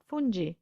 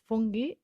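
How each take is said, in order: First: The g is pronounced as a soft j sound. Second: The g is pronounced as a hard sound. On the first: The speaker calls it wrong. "and not fungi" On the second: The speaker calls it right. "it's fungi"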